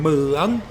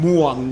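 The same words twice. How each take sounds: First: The tone rises through the word. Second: The tone stays level, not rising. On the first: The speaker calls it right. "It's got to be rising tone" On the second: The speaker calls it wrong. "You're saying muang"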